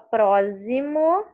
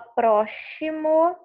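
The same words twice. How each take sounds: First: The x is pronounced as a z sound. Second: The x is pronounced as an sh sound. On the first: "você não fala próximo, ela não tem o som de Z" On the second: "Você não fala próximo, ela não tem o som chiado"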